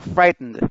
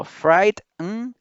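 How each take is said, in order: First: "frightened" as one word, FRIGHT strong, "nd" light; stress on FRIGHT. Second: "frightened" broken into "frait... nnn... d"; each sound marked. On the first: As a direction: hit FRIGHT in "frightened", then a short "n-d". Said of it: "la mayor fuerza de voz está en fright". ("frightened" con la fuerza en FRIGHT) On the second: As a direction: say "frightened" sound by sound, with clear gaps. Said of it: "marcando bastante el sonido de cada letra". ("frightened" marcando mucho cada sonido) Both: Shown as a demonstration.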